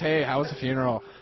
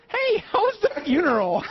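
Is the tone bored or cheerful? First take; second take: bored; cheerful. First: It is said in a bored tone. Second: It is said in a cheerful tone.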